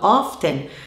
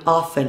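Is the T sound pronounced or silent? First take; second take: pronounced; silent. First: The T sound is pronounced in the middle. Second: The T sound is silent in the middle. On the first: "Alguns falantes nativos pronunciam o T de often e falam often" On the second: "é melhor que você fale often, que você opte por não usar a pronúncia do T"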